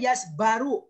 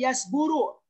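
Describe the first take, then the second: First: The vowel after the b is a. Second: The vowel after the b is u. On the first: "nggak boleh yasbaru" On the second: "nggak boleh yasburu"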